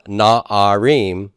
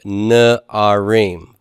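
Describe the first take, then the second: First: "na'arim" with a full "ah" in the first syllable, nah-ah-REEM; slow "na'arim", both a vowels full; wrong unreduced vowel. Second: "na'arim" with a short "nuh" first, nuh-ah-REEM; very slow, spaced "na'arim" starting on "nuh"; reduced first vowel. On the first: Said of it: "is not na'arim". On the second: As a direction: shrink the first vowel of "na'arim" to a schwa, then a long "ah". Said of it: "vocal shava, kametz". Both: Shown as a demonstration.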